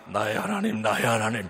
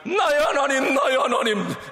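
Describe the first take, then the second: First: It is said in a low, subdued voice. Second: It is said in a higher, stronger voice.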